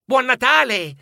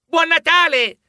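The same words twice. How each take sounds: First: High, cheerful holiday call; children wishing each other Merry Christmas; children's greeting. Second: Higher, louder cheerful shout; children shouting Merry Christmas on the way home; children's shout. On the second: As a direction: shout it across the schoolyard. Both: A narrator's reading. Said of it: "si auguravano i bambini".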